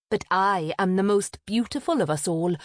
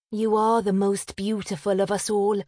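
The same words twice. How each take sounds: First: Mildly defiant comeback; understated boastful retort. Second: Lightly voiced wistful little sister, higher; mild, higher-pitched wistfulness; sighing. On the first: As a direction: shoot it back with pride. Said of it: "Avril shot back". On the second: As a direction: concede it with a gentle sigh. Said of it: "said with a sigh". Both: A narrator's reading.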